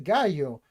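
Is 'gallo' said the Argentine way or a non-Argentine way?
non-Argentine. The double L is not said the Argentine way. The speaker calls it wrong. "they're in Argentina, so they do not say gallo"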